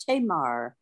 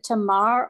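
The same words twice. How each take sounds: First: "Tamar" with a long AY in the first syllable, TAY-mar; long first vowel. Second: "Tamar" with a short, unstressed first syllable, tuh-MAR; short first vowel. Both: Shown as a demonstration. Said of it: "is it Tamar or Tamar".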